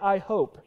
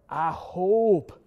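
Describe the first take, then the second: First: It is said plainly, hope in one syllable. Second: Grandfather's Lancaster County accent, hope drawn into two syllables.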